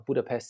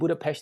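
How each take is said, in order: First: The s is said like s. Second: The s is said like sh. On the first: This is how visitors say it. "is uh, tourists, you know, visitors" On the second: This is how locals say it. "is how the Hungarians pronounce it"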